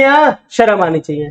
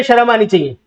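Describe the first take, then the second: First: Slow, with "या" leaned on; "या शर्म आनी चाहिए" slowed, weight on "या"; slow scolding stress. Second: Said in the usual way. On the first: Shown as a demonstration. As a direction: drive the jab home slowly. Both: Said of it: "या तो हिंदी आनी चाहिए".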